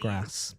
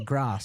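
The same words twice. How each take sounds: First: It is said in a plain, everyday accent. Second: It is said in a posh, upper-class accent. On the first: "instead of grass" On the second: "more Queen's English ... You say grass"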